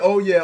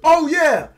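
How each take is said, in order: First: It is said quietly, under the breath. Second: It is said very loudly, almost shouted. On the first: It is said only to oneself. "As I muttered" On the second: Others can hear it. "I bellowed out louder than ever"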